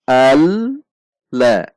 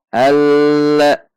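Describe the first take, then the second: First: The doubled l nearly stops, then rises again. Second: The doubled l is held with steady pressure. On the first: The speaker calls it right. "seperti hendak berhenti kemudian naik kembali" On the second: The speaker calls it wrong. "itu tekanannya tetap"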